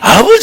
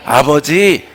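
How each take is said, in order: First: The voice is weak and bleating like a goat. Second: The voice is clear, clean and bright. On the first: The prayer lacks faith and goes unanswered. The speaker calls it wrong. "병든 염소 소리를 하니까" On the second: The prayer sounds sincere and faithful. The speaker calls it right. "맑고 깨끗하고 정직하고 선한 목소리로"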